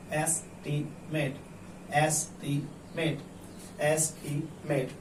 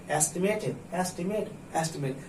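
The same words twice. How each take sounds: First: "estimate" split into es, ti, met with gaps; careful broken-up sounding-out of "estimate"; slowly, syllable by syllable. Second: Said in the usual way. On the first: Shown as a demonstration. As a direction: read "estimate" slowly, one syllable at a time. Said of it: "उसे धीरे-धीरे पढ़िए। ऐसे". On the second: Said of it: "इसमें तीन syllable है".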